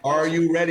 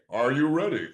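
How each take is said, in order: First: It is said in his normal voice. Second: It is said in a low Jameson impression.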